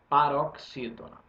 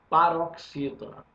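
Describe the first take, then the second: No difference in how they are said.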